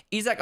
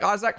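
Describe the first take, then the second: First: Isaac said as EE-zak; long ee to start Isaac; EE-zak pronunciation. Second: Isaac said as EYE-zak; Isaac starting like eye; EYE-zak pronunciation. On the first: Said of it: "I think Isaac, Isaac, fine". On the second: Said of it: "Isaac, fine". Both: Shown as a demonstration.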